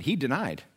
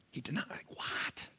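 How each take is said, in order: First: Said in the usual way. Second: Hushed, incredulous stage whisper; shocked whisper. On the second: Acted. Preacher stunned at Peter's denial, shocked whisper. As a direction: whisper it in mock disbelief.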